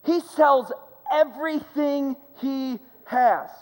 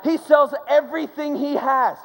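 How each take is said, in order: First: Slowed right down, every word weighted; slow emphatic repeat. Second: First telling of the line, stressed and raised; emphatic repeat. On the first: Preacher repeating to the congregation that he sold it all, drawn out and weighty. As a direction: let it land slowly, word by word. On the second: Preacher telling the congregation the man sold it all, emphatic. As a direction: build toward the point, hitting sells. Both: Shown as a demonstration.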